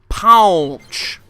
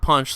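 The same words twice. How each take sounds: First: The vowel is a drawn-out 'aw' sound. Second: The vowel is a plain short 'uh' sound. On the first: The speaker calls it right. "P A W N C H" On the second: The speaker calls it wrong. "it's not punch like P U N C H"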